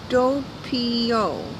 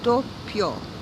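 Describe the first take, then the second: First: The word is said with three syllables. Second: The word is said with two syllables. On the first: The speaker calls it wrong. "That's three syllables" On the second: The speaker calls it right. "This is a two-syllable word"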